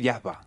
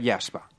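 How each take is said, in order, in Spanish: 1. Se dice con acento andaluz. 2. Se dice con acento español neutro. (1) "Si eres extremeño andaluz, podrías decir" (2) "la pronunciación más neutra que yo haría"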